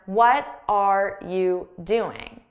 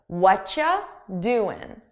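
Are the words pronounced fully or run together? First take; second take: fully; run together. First: Each word is pronounced fully and separately. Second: The first words blend into one reduced sound. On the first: The speaker calls it wrong. "which is what many students would learn in a textbook" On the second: The speaker calls it right. "I take "what are you" and I combine the sounds into one"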